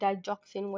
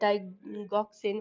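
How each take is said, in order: First: The middle consonant is a soft j sound. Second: The middle consonant is a hard g sound. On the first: "डाइगॉक्सिन और डाइजॉक्सिन whatsoever" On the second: "डाइगॉक्सिन और डाइजॉक्सिन whatsoever"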